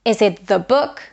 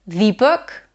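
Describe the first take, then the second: First: The said both ways, asking which; Is it the book, unsure of the vowel in the; "thee" or "thuh"?. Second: The said the other way, rising as a question; the book, trying the other vowel; other option. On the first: Teacher asking students how to say the, questioning rise. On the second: Teacher offering the second pronunciation, questioning rise. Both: Shown as a demonstration. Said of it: "uncertain about its pronunciation".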